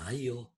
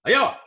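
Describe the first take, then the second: First: The word is said at a normal volume. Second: The word is shouted loudly from far away. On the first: It invites someone to come along. "Kata ayo pertama. Saya ngomong" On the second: It is not really an invitation. "Lalu saya berteriak dari jauh"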